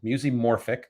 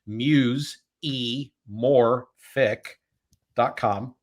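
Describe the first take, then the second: First: It is said at normal speed. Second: It is said very slowly.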